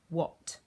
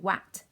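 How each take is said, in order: First: The vowel sounds like the 'o' in hot. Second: The vowel sounds like the 'a' in cat. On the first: The speaker calls it right. "we say what" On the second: The speaker calls it wrong. "We don't say wat"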